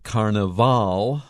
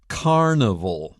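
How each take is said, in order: First: The stress is on the last syllable. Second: The stress is on the first syllable. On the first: This is how it is said in Brazil and Latin America. "the last syllable has the accent" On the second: This is how it is said in English. "In English, ... that's the first"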